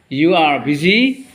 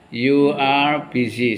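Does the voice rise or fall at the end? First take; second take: rises; falls. First: The voice rises at the end, like a question. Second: The voice falls at the end, like a statement.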